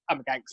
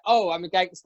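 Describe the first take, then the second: First: It is said in a serious, deadpan way. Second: It is said in a joking, playful way.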